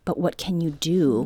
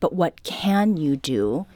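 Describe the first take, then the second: First: It sounds resigned. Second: It sounds encouraging.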